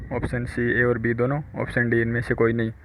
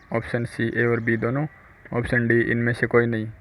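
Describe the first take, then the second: Both takes have the same delivery.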